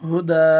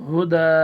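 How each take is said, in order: The two takes are said the same way.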